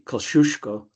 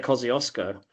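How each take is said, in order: First: The name is said with Polish pronunciation. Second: The name is said with Australian English pronunciation. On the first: This is how the original language pronounces it. The speaker calls it right. "It's it should be Kosciuszko" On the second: This is how locals adapt the name. The speaker calls it wrong. "but we say Kosciuszko"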